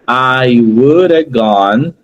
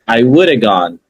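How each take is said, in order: First: Each word is said separately, one by one. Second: The words are linked into one flowing sound. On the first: The speaker calls it wrong. "ao invés de você ler palavra por palavra" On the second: The speaker calls it right. "Olha como fica um som único"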